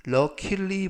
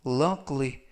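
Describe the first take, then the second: First: Luckily with an extra vowel, lu-ki-li; luckily spelled out in full syllables; wrong pronunciation. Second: Luckily said in two quick syllables, luck-ly; luckily as lak-li; right pronunciation. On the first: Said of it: "발음에 유의하실 점은". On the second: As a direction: swallow the middle vowel of luckily. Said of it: "luckily 보다는 luckily". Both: Shown as a demonstration.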